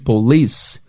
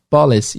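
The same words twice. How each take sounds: First: The stress is on the second syllable. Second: The stress is on the first syllable. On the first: The speaker calls it right. "a sílaba tônica é o li, em inglês também é police" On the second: The speaker calls it wrong. "brasileiro falando inglês, eles vão falar police"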